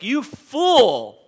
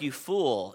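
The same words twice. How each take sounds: First: It is said emphatically, with strong force. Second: It is said mildly, without force.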